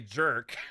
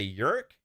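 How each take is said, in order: First: The name starts with a J sound. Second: The name starts with a Y sound. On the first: This is how Americans would say it. "in the States we would say jerk" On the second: This may be the original Swedish pronunciation. "it's because it's Swedish. I don't know if you say Yerk"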